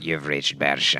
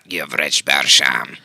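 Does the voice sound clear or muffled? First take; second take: muffled; clear. First: The voice sounds muffled, like a phone call. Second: The voice sounds fairly clear, not muffled.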